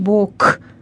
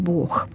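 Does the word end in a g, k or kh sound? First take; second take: k; kh. First: The word ends in a voiceless k sound. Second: The word ends in a voiceless kh sound. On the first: It sounds like the word for a side of the body. The speaker calls it wrong. "И не говорим «Бог», «левый Бог», «правый Бог»" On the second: It is the standard literary Russian form. The speaker calls it right. "а говорим «Бог»"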